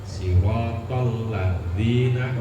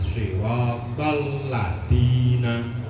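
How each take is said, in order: First: The consonant is a soft th-like sound. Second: The consonant is a plain hard d sound. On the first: The speaker calls it right. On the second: The speaker calls it wrong.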